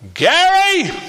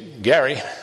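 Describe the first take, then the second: First: The name is called out loudly and forcefully. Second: The name is said in a calm, normal voice. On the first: The caller urgently demands full attention. "if she really wanted my attention" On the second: The caller wants ordinary attention. "if my mom wanted my attention"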